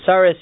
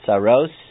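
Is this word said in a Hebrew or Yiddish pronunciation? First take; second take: Yiddish; Hebrew. First: The word has a Yiddish pronunciation. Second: The word has a Hebrew pronunciation. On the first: "It's really a Yiddish pronunciation" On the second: "the word tzaros"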